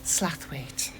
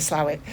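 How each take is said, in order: First: The name is said in its full, careful form. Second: The name is said in a short, casual form. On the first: It is the polite form used on the telephone. "if in my telephone voice, I would say Slathwaite" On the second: It is the everyday form used with people. "if I'm just talking to people, I just say Slowett"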